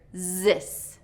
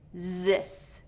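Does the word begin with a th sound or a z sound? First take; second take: z; z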